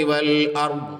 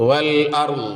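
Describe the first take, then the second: No difference in how they are said.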